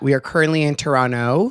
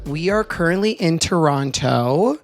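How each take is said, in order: First: The second t is not pronounced. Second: The second t is clearly pronounced. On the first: The speaker calls it right. "You don't pronounce the second T" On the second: The speaker calls it wrong. "how disrespectful of me"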